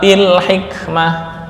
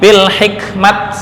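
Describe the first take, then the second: First: The word ends in a breathy -ah. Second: The word ends in a clipped -at. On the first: The speaker calls it right. "ketika wakaf dibaca bil hikmah" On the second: The speaker calls it wrong. "Atau ini bil hikmat, enggak"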